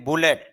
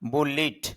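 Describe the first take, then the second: First: The second vowel sounds like the 'e' in bet. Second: The second vowel sounds like the 'i' in bit. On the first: The speaker calls it wrong. "যদি আমরা এটা বলি বুলেট" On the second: The speaker calls it right. "শুদ্ধ ইংরেজি যে উচ্চারণটা এটা হলো বুলিট"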